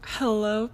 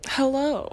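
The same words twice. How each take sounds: First: Said in the usual way. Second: Higher, louder cheesy hello. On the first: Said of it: "that was the cheesiest thing". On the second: Shown as a demonstration. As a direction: ham up the greeting. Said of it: "that was the cheesiest thing I've probably ever said".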